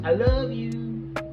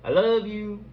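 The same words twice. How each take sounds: First: It sounds alluring and intimate. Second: It sounds sly and falsely sweet. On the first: The listener is being enticed. "to seduce" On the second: The words hide an ulterior request. "it's a little bit of a deceive"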